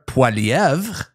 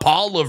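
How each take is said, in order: First: The name is pronounced the French way. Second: The name is pronounced the English way. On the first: The speaker calls it right. "I'm from French Canada, so I can pronounce it. It's Pierre Poilievre" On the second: The speaker calls it wrong. "not Poilievre or whatever you guys say"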